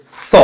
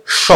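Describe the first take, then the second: First: স said as a hissing "so"; dental s sound. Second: স said as a hushing "sho"; palatal sh sound. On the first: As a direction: pronounce স as a pure s, at the teeth. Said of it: "আর দন্ত স যে সাউন্ডটা create করে". (স-কে দন্ত্য স-এর মতো উচ্চারণ) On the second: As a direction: pronounce স as sh, tongue to the palate. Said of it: "একটা তালব্য সটা". (স-কে তালব্য শ-এর মতো উচ্চারণ) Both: Shown as a demonstration.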